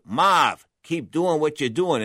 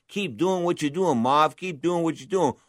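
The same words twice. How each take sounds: First: Put-on a light Boston accent on the trainers; lightly imitating a Massachusetts accent. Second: Put-on repeating the trainers in a Boston accent; Massachusetts accent. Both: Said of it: "in that Massachusetts accent".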